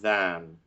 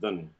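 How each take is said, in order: First: The vowel is a full, pure vowel. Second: The vowel is reduced to a weak schwa. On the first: This is how it is used for singing. "But here for singing" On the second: This is how it sounds in ordinary connected speech. "in speech, you'd say quickly"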